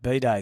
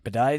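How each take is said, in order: First: The word sounds like 'B-Day', as in birthday. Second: The word does not sound like 'B-Day'. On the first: It could be mistaken for a birthday. The speaker calls it wrong. "people would go, "Oh, was it his birthday?" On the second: It clearly means the bathroom fixture. The speaker calls it right. "That's why you got to say it bidet"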